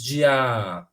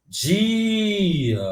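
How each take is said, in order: First: "dia" wrongly stressed as "di-AAA", ending drawn out; stress on final A. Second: "dia" with a long, stretched "DIII" and short "a"; stress on DI. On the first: Teacher showing the wrong stress, "dia" stretched on the final A. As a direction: hold the last syllable of "dia", keeping "di" short. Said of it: "ou você diz dia". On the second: Teacher testing the tonic syllable, "dia" stretched on DI. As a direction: hold the first syllable of "dia" as if calling it out. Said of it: "Grita a palavra na tua cabeça". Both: Shown as a demonstration.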